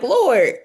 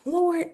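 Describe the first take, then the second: First: It is said in a frustrated, annoyed way. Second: It is said in a soft, reverent way.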